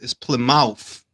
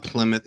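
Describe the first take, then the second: First: "Plymouth" slowly as plim-MOUTH; own-country pronunciation. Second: "Plymouth" as PLIM-uth, reduced ending; rejected pronunciation. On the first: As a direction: give Plymouth a full "mouth" at the end. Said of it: "That's how they say it in my country". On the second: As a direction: say Plymouth with a short, weak second syllable. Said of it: "It's not Plymouth". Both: Shown as a demonstration.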